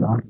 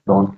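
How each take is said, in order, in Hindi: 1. स्वर खुली 'aa' ध्वनि है। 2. स्वर गोल 'o' ध्वनि है।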